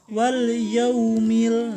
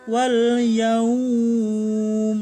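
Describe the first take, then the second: First: The vowel in yaum is kept short. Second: The vowel in yaum is drawn out long. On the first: The speaker calls it right. "enggak ada madnya. Jadi dibacanya" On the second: The speaker calls it wrong. "Berarti bacanya harus gini dong kalau mad"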